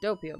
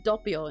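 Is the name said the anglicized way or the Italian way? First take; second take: anglicized; Italian. First: The name is said with an anglicized pronunciation. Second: The name is said with an Italian pronunciation.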